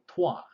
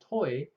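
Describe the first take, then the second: First: It is said with a French pronunciation. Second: It is said with an English pronunciation. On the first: It means you. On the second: It names the planet.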